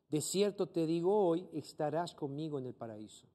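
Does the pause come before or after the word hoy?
after. The pause comes after the word hoy.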